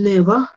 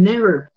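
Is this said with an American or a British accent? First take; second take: British; American. First: It is said with a British accent. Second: It is said with an American accent. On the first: "Ellos dicen never" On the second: "en Estados Unidos dicen never"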